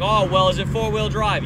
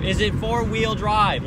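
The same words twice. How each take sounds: First: Loud, higher mock questioning; lightly voiced oblivious old man; retold old clerk. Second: Slow, loud, higher mock question; retold oblivious repeat. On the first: Old clerk asking the customer about the truck, loudly oblivious. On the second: Old clerk asking once more, not listening, slowly oblivious. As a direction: drag out the repeated question, mocking him. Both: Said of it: "he just kept not listening to me".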